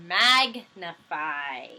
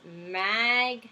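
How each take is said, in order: First: "magnify" stretched out slowly, each syllable clear; "magnify" said slowly like a teacher sounding it out; drawn-out sounding. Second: Said in the usual way. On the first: Shown as a demonstration. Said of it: "and it ends in an I sound". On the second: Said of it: "and it's magnify".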